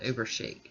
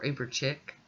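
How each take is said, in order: First: The second word sounds like 'sheek'. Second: The second word sounds like 'chick'. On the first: This is the way the speaker prefers to say it. "But I pronounce this one Uber Chic" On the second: This is another possible way to say it. "Depends on how you want to say it"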